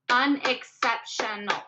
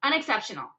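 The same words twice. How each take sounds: First: "unexceptional" said slowly, un-ex-cep-tion-al; syllables drawn out slowly. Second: Said in the usual way. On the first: Shown as a demonstration. Teacher counting syllables for students, slow and spaced. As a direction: pace out every syllable of "unexceptional".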